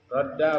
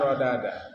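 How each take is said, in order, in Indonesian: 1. Dua bunyi d menyatu menjadi satu d ganda. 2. Sebuah vokal memisahkan dua bunyi d. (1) "Dua huruf" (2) "tapi asalnya sebenarnya rodada"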